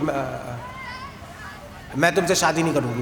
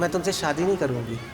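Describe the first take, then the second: First: It is said in an angry tone. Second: It is said in a calm tone.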